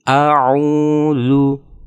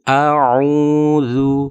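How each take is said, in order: No difference in how they are said.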